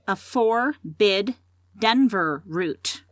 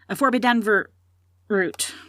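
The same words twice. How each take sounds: First: It is said at a slower pace. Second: It is said at a faster pace.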